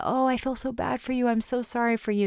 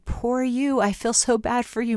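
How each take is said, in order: First: Higher, gushing pity on Oh; a hint of syrupy self-pity talk; mock sympathy. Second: Pitying tone pitched higher, syrupy; a touch of sugary pity, pitched up; mock sympathy. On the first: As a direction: play the over-sorry friend, pitched up. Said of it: "rather than that self-pity idea". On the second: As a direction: coo it like an over-sorry friend. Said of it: "not exactly the ... message".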